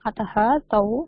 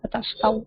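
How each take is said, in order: First: It is said as two separate words. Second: It is said as one joined word. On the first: "for your understanding I am splitting" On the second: "அத்தஸ்தௌன்னு படிக்கலாம்"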